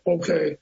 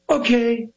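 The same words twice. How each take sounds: First: It is said flatly without energy. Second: It is said theatrically with a pop.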